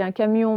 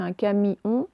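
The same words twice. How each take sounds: First: Said in the usual way. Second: "camion" split as ca-mi-on; spelling pronunciation. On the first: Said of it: "on dit un camion". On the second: Shown as a demonstration. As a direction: say "camion" in three separate syllables, ca-mi-on. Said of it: "mais ça s'écrit un camion".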